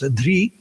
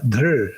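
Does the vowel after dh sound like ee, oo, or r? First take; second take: ee; r. First: The root ends in an ee-like vowel. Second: The root ends in a vowel-like r sound. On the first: This is the Bengali and North Indian pronunciation. "among Bengalis and North Indians, it's often pronounced dhri" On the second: This is the original pronunciation scholars reconstruct. "R as a vowel"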